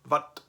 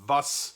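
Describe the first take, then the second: First: The word ends in a t sound. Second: The word ends in an s sound. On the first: This is the older northern regional form. "In Northern German, very, very common, people will say" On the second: This is the standard modern form. "the German word for what is"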